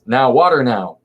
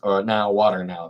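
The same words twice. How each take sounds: First: Calling out, louder. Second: Said in the usual way. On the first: Shown as a demonstration. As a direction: shout water now with force. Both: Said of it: "That, it denotes water".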